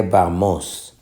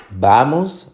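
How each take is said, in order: First: Vamos wrongly stressed on final MOS; stress on last syllable. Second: Vamos stressed on VA; stress on first syllable. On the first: Teacher offering the wrong option, last-syllable stress on vamos. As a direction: shift the stress to the end: va-MÓS. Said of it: "o se dice vamos". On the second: Teacher testing where the stress falls, first-syllable stress on vamos. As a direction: hit the first syllable: VA-mos. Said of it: "está en la penúltima". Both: Shown as a demonstration.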